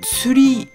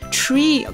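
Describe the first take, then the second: First: It is said Japanese-style, like 'tsu-ri'. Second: It is said as the English word 'tree'. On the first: "je le prononce à la japonaise avec un tsu et un ri" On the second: "comme en anglais"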